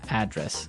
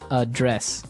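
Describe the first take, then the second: First: The stress is on the first syllable. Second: The stress is on the second syllable.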